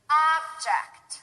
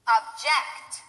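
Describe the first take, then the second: First: The stress is on the first syllable. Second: The stress is on the second syllable. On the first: It is used as a noun. "The first one will be stressed on the first syllable, that's the noun" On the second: It is used as a verb. "The second one will be stressed on the second syllable, that's the verb"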